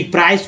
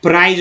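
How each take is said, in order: First: प्राइस ending in a hissless-voiced "s", not "z"; correct S ending. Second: प्राइज ending in a voiced "z/j" in place of S; mistaken Z ending. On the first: Teacher giving learners the right word, प्राइस with final S. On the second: Teacher showing a common mistake, प्राइज with voiced ending. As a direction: say प्राइज with a buzzing final sound. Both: Shown as a demonstration. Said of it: "प्राइज लोग बोल देते हैं".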